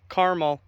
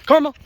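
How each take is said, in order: First: Said in the usual way. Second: High, loud call to a dog. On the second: Shown as a demonstration. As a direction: shout the name to call the dog over. Calling dog by a false name.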